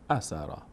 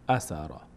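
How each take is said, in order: No difference in how they are said.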